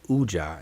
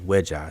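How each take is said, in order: First: The word begins with a vowel sound. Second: The word begins with a w sound. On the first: This is how most people commonly say it. The speaker calls it wrong. "People pronounce it Uja" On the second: This is how it should be said. The speaker calls it right. "it should be Unk Weja Seneb"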